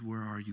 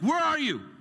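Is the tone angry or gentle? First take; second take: gentle; angry. First: It sounds gentle and longing, not demanding. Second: It sounds like an angry, demanding parent.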